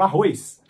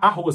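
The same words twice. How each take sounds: First: The vowel has an 'ee' glide before the end. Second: The vowel has no 'ee' glide before the end. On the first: The speaker calls it wrong. "Só que não tem o i no arroz" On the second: The speaker calls it right. "eu não consigo falar arroz"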